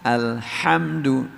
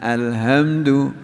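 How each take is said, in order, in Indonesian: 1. H-nya diucapkan penuh dari tengah tenggorokan. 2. H-nya hanya diucapkan setengah.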